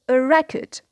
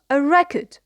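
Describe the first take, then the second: Both takes have the same delivery.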